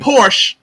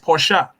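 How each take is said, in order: First: The name ends with a plain 'sh' sound. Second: The name ends with an added 'sha' syllable. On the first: The speaker calls it wrong. "It ain't Porsche" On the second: The speaker calls it right. "it's Portia"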